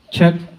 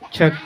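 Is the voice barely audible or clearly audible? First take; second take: clearly audible; barely audible. First: The voice is clearly audible through the speakers. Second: The voice is barely audible through the speakers. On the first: "i-engage po natin yung gain... may marinig na kayo" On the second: "flat at walang gain. Halos wala po kayong marinig"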